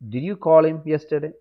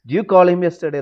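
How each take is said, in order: First: Did you is said fully with a clear d. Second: Did you is squeezed into a quick d'you.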